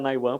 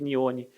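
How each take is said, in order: First: The name is said as 'Nai-one'. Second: The name is said as 'Nee-oh-nee'. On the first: The name comes from Niobium One. The speaker calls it right. "Fiquei surpreso que você acertou a pronúncia" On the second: This is how most people say the name. The speaker calls it wrong. "todo mundo chama de Nione"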